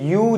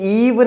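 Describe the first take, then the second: First: It is said like you, with no v. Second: It is said like eve, ending in v. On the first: The speaker calls it right. "इसको पढ़ते हैं यू" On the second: The speaker calls it wrong. "हम लोग ईव नहीं पढ़ते"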